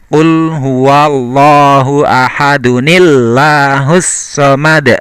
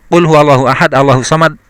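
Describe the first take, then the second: First: Ahad links into Allahu through an added nil sound. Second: Ahad goes into Allahu with no added nil sound. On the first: The speaker calls it right. "Tapi bacanya adalah" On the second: The speaker calls it wrong. "maka bacaannya tidak"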